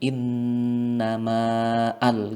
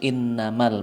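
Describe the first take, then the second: First: The vowel before al is drawn out long. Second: The vowel is short and runs straight into al. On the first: The speaker calls it wrong. "tidak kita baca panjang" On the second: The speaker calls it right. "langsung innamal masuk dengan alif lam"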